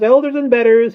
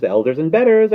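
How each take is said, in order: First: Very high, very loud screech; conceited bird's piercing shriek; screaming. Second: High, loud conceited bird; loud, climbing bird boast; rising scream. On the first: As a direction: scream it at the peak. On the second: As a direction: build towards a scream. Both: A narrator's reading. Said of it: "he screamed".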